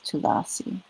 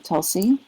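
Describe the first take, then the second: First: It is said with three syllables, Tu-la-si. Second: It is said with two syllables, Tul-si. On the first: This is the Sanskrit and Bengali form. "In Sanskrit and Bengali it's Tulasi" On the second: This is the Hindi form. "In Hindi they say Tulsi"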